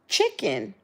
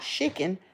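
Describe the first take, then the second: First: The first sound is a crisp, train-like 'ch'. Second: The first sound is soft, not a crisp 'ch'. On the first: The speaker calls it right. "Like you going choo choo with a with a train" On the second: The speaker calls it wrong. "Not chicken"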